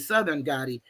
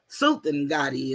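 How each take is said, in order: First: The first word sounds like 'southern'. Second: The first word sounds like 'sultan'. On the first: This is how most people commonly say the name. "but we all say" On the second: This is the name's proper pronunciation. "is really how you say it"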